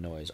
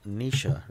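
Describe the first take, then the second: First: The name sounds like 'noise'. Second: The name sounds like 'Nisha'. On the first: The speaker calls it wrong. "rather than noise" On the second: The speaker calls it right. "you pronounce it Nisha rather than noise"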